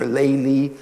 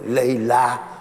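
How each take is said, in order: First: The name ends with an 'ee' sound. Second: The name ends with an 'ah' sound. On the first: This is the Eastern Islamic form of the name. "Eastern Islamic pronunciation" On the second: This is the Arabic form of the name. "Arabic pronunciation"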